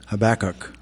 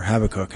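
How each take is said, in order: First: Habakkuk stressed on the middle syllable, ha-BAK-uk; pronunciation variant. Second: Habakkuk stressed on the first syllable, HAB-a-kuk; alternative pronunciation. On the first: Preacher naming the prophet, Habakkuk pronounced ha-BAK-uk. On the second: Preacher offering another way, Habakkuk pronounced HAB-a-kuk. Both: Shown as a demonstration. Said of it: "however you wanna pronounce that".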